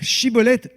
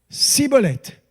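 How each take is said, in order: First: The word begins with an sh sound. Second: The word begins with an s sound. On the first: The speaker calls it right. "ils devaient dire Chibolette" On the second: The speaker calls it wrong. "ils ne pouvaient pas prononcer le son che"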